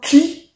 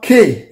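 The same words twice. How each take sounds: First: K said as "kee"; Yoruba K. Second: K said as "kay"; English K. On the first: Teacher shows the Yoruba side, K said as "kee". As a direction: say K with an ee vowel, "kee". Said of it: "and it is sound K here". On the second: Teacher shows the English side, K said as "kay". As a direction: say the letter K to rhyme with day. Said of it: "This one is sound K here". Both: Shown as a demonstration.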